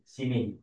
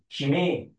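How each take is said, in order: First: The name is said like 'see me'. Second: The name is said like 'she may'. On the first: The speaker calls it wrong. "You read fast enough, it's like, okay, see me" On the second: The speaker calls it right. "But it's not see me. She may"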